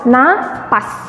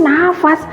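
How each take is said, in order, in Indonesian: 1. Konsonan di tengah itu bunyi 'p'. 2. Konsonan di tengah itu bunyi 'f'. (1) "Pakai P" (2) "Kayaknya tuh nafas"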